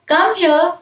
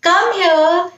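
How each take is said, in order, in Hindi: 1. यह प्यार और स्नेह से कहा गया है। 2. यह प्यार और स्नेह से कहा गया है।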